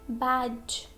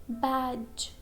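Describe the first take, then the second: No difference in how they are said.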